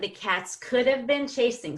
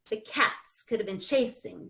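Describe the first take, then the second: First: The word could is stressed. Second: The word could is not stressed. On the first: The speaker calls it wrong. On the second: The speaker calls it right.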